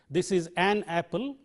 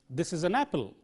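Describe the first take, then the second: First: The article has a full vowel, as in 'cat'. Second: The article is reduced to a short schwa. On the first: The speaker calls it wrong. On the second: The speaker calls it right.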